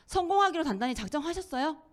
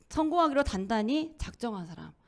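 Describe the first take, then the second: First: 성공하기로 lifted a little higher; stress on 성공하기로. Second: Said in the usual way. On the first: Shown as a demonstration. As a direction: lean on 성공하기로 as a direct question. (성공하기로에 힘주어 묻기)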